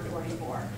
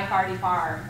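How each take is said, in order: First: The 'or' vowels keep their usual 'or' sound. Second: The 'or' vowels sound like 'ar'. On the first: The speaker is not from Saint Louis. "rather than" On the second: The speaker is from Saint Louis. "the or and the r have merged"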